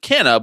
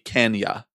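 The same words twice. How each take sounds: First: The name is said in an Americanized way. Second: The name is said the traditional Portuguese way. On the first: This is the pronunciation the family chooses. "It has been sort of Americanized ... So they choose to pronounce it Canha" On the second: This is the traditional pronunciation of the spelling. "the traditional way that you would say that ... consonant combination in Portuguese, it would be Canha"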